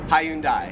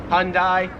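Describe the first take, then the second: First: The word is said in three syllables. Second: The word is said in two syllables. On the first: "Australians, three syllables" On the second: "Let's make it like two syllables"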